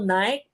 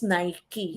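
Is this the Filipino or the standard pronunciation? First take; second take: Filipino; standard. First: It is said the common Filipino way. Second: It is said the standard brand way. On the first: The speaker calls it wrong. "Tayo mga Pilipino" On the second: The speaker calls it right. "right right pronunciation po is Nike"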